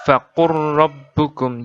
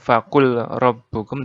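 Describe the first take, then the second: First: The L merges into a doubled, held R. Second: A separate L sound comes before the R. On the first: The speaker calls it right. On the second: The speaker calls it wrong.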